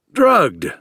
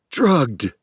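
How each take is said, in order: First: High, loud, flat confirmation; agreeing. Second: Strained word forced through locked jaw; through clenched teeth. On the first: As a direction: confirm it bluntly. Captor calmly confirms. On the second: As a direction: squeeze it out past rigid teeth. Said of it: "between teeth that were clenching in rigor". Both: A narrator's reading.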